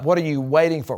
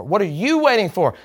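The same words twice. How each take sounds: First: Said in the usual way. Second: "you" picked out as the one responsible; stress on YOU. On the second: Shown as a demonstration. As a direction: lean hard on "you", not the other words. Contrasts you with Holy Spirit.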